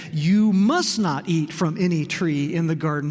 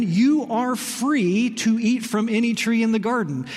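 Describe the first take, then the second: First: "must" pressed hard as a stern ban; stress on must not. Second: "free" leaned on, slow and open; stress on free. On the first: Preacher quoting the serpent's twisted version, stress on "must". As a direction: hit "must" like a flat command. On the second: Preacher quoting God's generous permission, weight on "free". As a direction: let "free" carry the grace of the line. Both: Shown as a demonstration. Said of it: "shifted the word from free to not".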